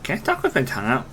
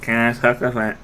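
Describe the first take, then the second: First: Talking with tongue out; tongue sticking out. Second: Tongue-out attempt, garbled; tongue sticking out. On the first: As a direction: speak with your tongue stuck out. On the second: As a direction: try to talk with tongue out. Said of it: "no, no, not really". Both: Shown as a demonstration.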